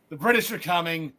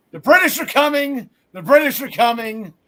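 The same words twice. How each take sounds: First: Paul Revere fading. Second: Loud mock town-crier warning, lightly voiced; Paul Revere cry. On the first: Retold or imitated. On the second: Host mimicking Paul Revere warning co-host Gary, loud mock cry. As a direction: call it out like a rider raising the alarm. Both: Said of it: "was reminded of Paul Revere".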